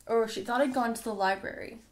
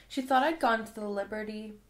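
First: "library" said plainly as lie-brary, fixing the slip; "library" read right this time, the corrected take; corrected word. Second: "Liberty" said as the place name Liberty, not the word library; "Liberty" read where the book means "library", the misreading before the fix. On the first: Reader corrects "Liberty" to "library". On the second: Reader slips and reads "Liberty" for "library". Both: Real, not acted.

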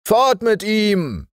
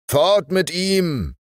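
First: Noch höher und lauter, wie von fern widerhallend; Echo der Mannschaft. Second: Hoher, langsamer gemeinsamer Ruf; Ruf der Offiziere. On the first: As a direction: als hallendes Echo vom Mast. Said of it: "hallte es am großen Mast wieder". (Mannschaft wiederholt den Ruf, hallend und höher) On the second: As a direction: im Chor fordernd rufen. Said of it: "riefen die Offiziere wie aus einem Munde". (Offiziere fordern, hoher langsamer Ruf) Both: Acted.

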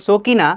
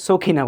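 First: 'সকিনা' with an unaspirated k; no puff on the k of 'সকিনা'; plain k. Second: 'সখিনা' with a puff of air after k; native-English style kh in 'সখিনা'; aspirated k. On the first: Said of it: "যার নাম সকিনা". ('সকিনা' অল্পপ্রাণ ক দিয়ে) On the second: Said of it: "native speaker এসে সখিনা". ('সখিনা' মহাপ্রাণ খ দিয়ে) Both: Shown as a demonstration.

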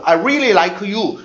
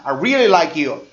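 First: "like you" split as "lai-keu yoo"; "like you" unlinked, in three syllables; separated pronunciation. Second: "like you" run together as "lai-kyoo"; "like you" in two syllables, ending "kyoo"; linked pronunciation. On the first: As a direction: put an extra "eu" after the k in "like you". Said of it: "이렇게 안 합니다". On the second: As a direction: link the k of "like you" into "you". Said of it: "끼우 발음이 들어가죠". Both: Shown as a demonstration.

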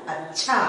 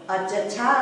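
First: अच्छा with a half च, as ach-chhaa; short च sound. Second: अच्छा with a full च, as a-cha-chhaa; full च sound. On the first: Teacher answering what it becomes, short-च pronunciation. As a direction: close quickly on च in अच्छा, then release छा. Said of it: "च की उच्चारण छोटी हो जाएगी". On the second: Teacher showing the reading to avoid, full-च pronunciation. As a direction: separate अच्छा छा into distinct syllables, a-cha-chhaa. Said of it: "अच्छा छा नहीं होता है". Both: Shown as a demonstration.

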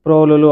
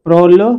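First: ప్రోలులు in three syllables, single ల sounds; ప్రోలులు with each లు separate; ordinary undoubled pronunciation. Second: ప్రోళ్ళు loud, with ళ్ళ doubled; ప్రోళ్ళు in two tight syllables; firm double consonant. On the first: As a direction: say ప్రోలులు easily, without doubling. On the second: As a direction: hit the held ళ్ళ in ప్రోళ్ళు. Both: Shown as a demonstration. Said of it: "ద్విత్వాలు లేకుండా సాధారణంగా పలికేస్తూ".

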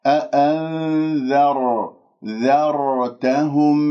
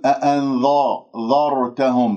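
First: Slow "أأنذر، ذرتهم" with a thin ذ; light dhal. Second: "أأنذرتهم" with ذ darkened toward ظ; wrongly heavy dhal. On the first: Teacher corrects the mistake, light dhal in slow recitation. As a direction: recite with the ذ kept light, n held. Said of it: "ولا أفخم الذال بسبب الراء". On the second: Teacher shows the mistake, heavy dhal in أأنذرتهم. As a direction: thicken the ذ into a ظ. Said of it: "كأنه صارت قريبة إلى صوت الظاء". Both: Shown as a demonstration.

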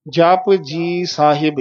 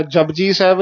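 First: ਜਪ ਜੀ ਸਾਹਿਬ slowly, word by word, clear p; correct careful form. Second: ਜਪਜੀ ਸਾਹਿਬ run together as jabji saib; quick ਜਪਜੀ ਸਾਹਿਬ with b for p; mispronunciation demo. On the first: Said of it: "ਇਸ ਤਰ੍ਹਾਂ।". (ਜਪ ਜੀ ਸਾਹਿਬ ਹੌਲੀ, ਵੱਖ-ਵੱਖ) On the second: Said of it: "ਨਹੀਂ ਕਹਿਣਾ।". (ਜਪਜੀ ਸਾਹਿਬ ਵਿੱਚ ਬੱਬਾ ਲਾ ਕੇ) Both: Shown as a demonstration.

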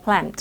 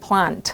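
First: "plant" said with American 'ae'. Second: "plant" said with British 'ah'. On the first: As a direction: make the vowel in "plant" an American แอะ. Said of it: "ถ้าอเมริกันเราจะได้ยินคุ้นชินกับคำว่า". (plant ออกเสียงแอะแบบอเมริกัน) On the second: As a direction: make the vowel in "plant" a British อะ. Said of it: "ถ้าเป็นอังกฤษเขาจะเป็นอะ". (plant ออกเสียงอะแบบอังกฤษ) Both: Shown as a demonstration.

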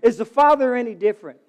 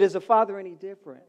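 First: Father lifted and loud, question to the crowd; preacher's challenge on "Father"; stress on Father. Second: Repeated question. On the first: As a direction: lean on "Father" as you ask. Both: Real, not acted. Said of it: "I said".

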